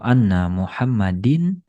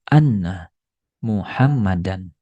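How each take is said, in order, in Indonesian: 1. Nama itu diakhiri dengan -din. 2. Nama itu diakhiri dengan -dan. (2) "membuat kata setelahnya dibaca menjadi fathah"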